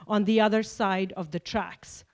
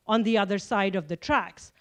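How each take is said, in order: Both takes have the same delivery.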